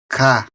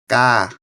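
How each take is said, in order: First: The K is released with a puff of air. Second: The K is released without a puff of air. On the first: "o K, aspirado e o não aspirado" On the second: "não aspirado"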